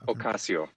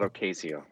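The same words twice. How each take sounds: First: The A in 'ca' is an open 'ah'. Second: The A in 'ca' is not 'ah'. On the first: The speaker calls it right. "Ocasio, not Ocasio. The Spanish A is ah" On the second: The speaker calls it wrong. "not Ocasio"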